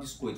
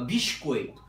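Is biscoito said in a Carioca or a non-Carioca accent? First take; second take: non-Carioca; Carioca. First: The word is said without a Carioca accent. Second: The word is said in a Carioca accent. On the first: "ele me corrigiu aqui agora, não fala biscoito" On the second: "fala biscoito"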